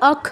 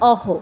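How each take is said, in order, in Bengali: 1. শেষ ধ্বনিটি একটি কর্কশ 'kh'। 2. শেষ ধ্বনিটি একটি শ্বাসযুক্ত 'h'। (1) "খুব দ্রুত বলবেন ... তখন হচ্ছে অখ হবে" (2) "সেই ক্ষেত্রে এর উচ্চারণ হবে অহ"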